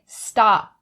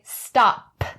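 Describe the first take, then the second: First: The final p is held back, not released. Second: The final p is fully released with air. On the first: The speaker calls it right. "What you should do is stop that p sound. So you'll say stop" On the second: The speaker calls it wrong. "You won't say stop"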